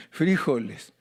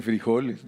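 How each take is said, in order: First: "frijoles" esdrújulo, FRÍ-jo-les; pronunciación colombiana. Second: "frijoles" con la o tónica, fri-JO-les; acento en la O. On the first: Retold or imitated. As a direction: golpea la primera sílaba de "frijoles". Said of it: "Ellos se lo ponen en la I". ("frijoles" a la colombiana, acento en la i) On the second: Shown as a demonstration. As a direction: carga la voz en "jo" de "frijoles". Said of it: "lleva acento en la O". ("frijoles" llano, acentuado en la o)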